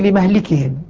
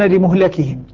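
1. الميم تأخذ 'a' واللام تأخذ 'i'. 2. الميم تأخذ 'u' واللام تأخذ 'a'. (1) "حفص يقول لمهلكهم" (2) "الباقون لمهلكهم"

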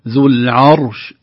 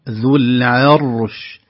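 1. صوت العين يُنطق مفخّمًا ومَمدودًا. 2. صوت العين مرقّق، والراء مفخّمة. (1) "لا نقول ذو العرش" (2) "نرقق العين ونفخم الراء"

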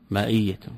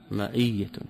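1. الحرف الأوسط همزة. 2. الحرف الأوسط همزة.

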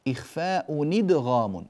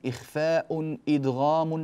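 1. الكلمة الأولى تتصل بالثانية مباشرة. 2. الهمزة تبدأ الكلمة الثانية. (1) "نقل حركة الهمزة إلى الساكن قبلها" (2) "ولا نقول إخفاء إدغام، هكذا البيت انكسر"

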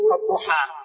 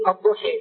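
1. الحركة الأخيرة فتحة كاملة مفتوحة. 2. الحركة الأخيرة تميل نحو الكسر. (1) "وهناك من يقرأ بالفتح" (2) "هناك من العرب من يقرأ بالإمالة"

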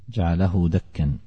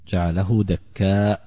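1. تنتهي الكلمة الأخيرة بـ -an من غير همزة. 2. تنتهي الكلمة الأخيرة بمد طويل وهمزة. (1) "بالتنوين من غير همز" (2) "على قراءة الكوفيين الثلاثة حمزة وعاصم والكسائي"

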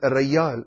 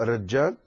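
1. الحرف الأوسط صوت "y". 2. الحرف الأوسط صوت "j". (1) "وبعض أهل الخليج العربي ينطقون الياء الجيم ياء" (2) "بدلا أن يقولوا الرجال"

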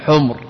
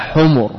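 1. ليس بعد الحرف الأوسط أي حركة. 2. يتبع الحرف الأوسط حركة قصيرة. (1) "ولا تقل حمر، لأن حمر هناك سبق فعل جمع لأحمر وحمراء" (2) "على حمر"

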